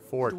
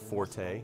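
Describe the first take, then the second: First: It is said as one syllable, like fort. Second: It is said as two syllables, for-tay. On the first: The speaker calls it right. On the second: The speaker calls it wrong. "Not forte"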